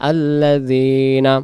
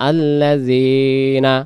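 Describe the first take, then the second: Both takes have the same delivery.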